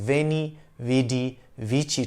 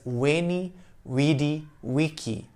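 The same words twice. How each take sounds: First: Each word begins with a V sound. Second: Each word begins with a W sound. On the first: This is how it is usually said today. "we usually pronounce it as" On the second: This is how it was likely said in ancient times. "Caesar himself might have said it as"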